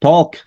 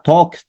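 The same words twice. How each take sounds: No difference in how they are said.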